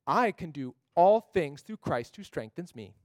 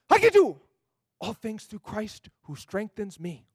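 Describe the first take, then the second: First: It is said in an annoying, teasing tone. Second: It is said with a surprised tone.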